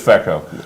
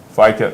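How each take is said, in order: First: The first syllable sounds like 'fee'. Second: The first syllable sounds like 'fie'. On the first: The speaker calls it right. "It really is FECO" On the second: The speaker calls it wrong. "It's not FICO"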